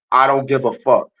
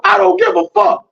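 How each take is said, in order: First: Said in the usual way. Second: Very high, loud falsetto yell; hammed-up defiant outburst at the top of the voice; defiant screech. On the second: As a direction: explode into a shrieked retort. Escalated retort to mocked warning.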